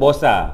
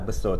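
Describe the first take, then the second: First: It sounds like bosa, with changed vowels. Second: The word ends in an o vowel. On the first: "Negeri Sembilan kata bosa" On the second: "Orang Perak mungkin akan sebut besar juga... ejaan dia B E S O"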